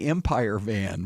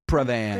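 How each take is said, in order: First: The name begins like the word 'empire'. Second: The name begins with a short 'impra' sound. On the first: The speaker calls it wrong. "I've been saying Empire Van, but I can tell that's wrong" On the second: The speaker calls it right. "it's the Impra"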